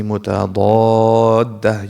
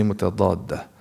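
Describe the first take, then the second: First: "mutadadda" with a long, drawn-out "daa"; recitation-style elongation. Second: Said in the usual way. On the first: Shown as a demonstration. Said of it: "You're not reading the Quran". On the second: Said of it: "just say mutadadda".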